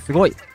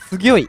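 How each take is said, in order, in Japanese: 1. 真ん中の音節は普通の'go'です。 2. 真ん中の音節は口蓋化した'gyo'です。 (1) "すごいじゃなくて"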